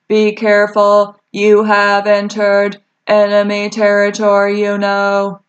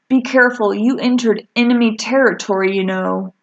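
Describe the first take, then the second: First: It is said in a flat monotone. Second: It is read with normal lively intonation.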